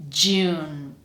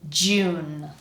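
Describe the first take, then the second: Both takes have the same delivery.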